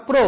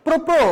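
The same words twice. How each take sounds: First: প্র said once, clean, no doubling; one crisp প্র; correct single demo. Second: প্র, প্র said as a doubled pro-pro; wrong doubled demo. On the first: (সঠিক একক উচ্চারণ প্র) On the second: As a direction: deliberately double the প্র sound. (ভুল দ্বিত্ব উচ্চারণ প্র, প্র) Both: Shown as a demonstration. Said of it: "এরকম বলা যাবে না".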